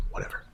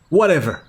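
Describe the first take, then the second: First: Muttered aside. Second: Dismissive. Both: Real, not acted. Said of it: "One of these variations was almost right".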